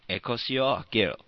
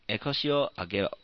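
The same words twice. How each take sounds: First: It is said in a commanding, ordering tone. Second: It is read plainly with a neutral tone.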